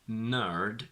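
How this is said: The R after the vowel is pronounced. "in rhotic"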